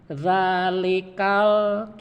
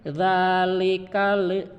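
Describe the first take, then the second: First: The final L sound is clean, without echo. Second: The final L bounces with an added echo vowel. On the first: The speaker calls it right. "harus bersih" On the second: The speaker calls it wrong. "Jangan begini"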